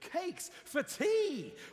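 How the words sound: The voice sounds lively and excited. The speaker is pleased about cakes for tea. "Or you could be excited"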